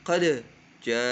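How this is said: There is a short pause between qad and ja. The speaker calls it wrong. "ya ada berhenti sebentar"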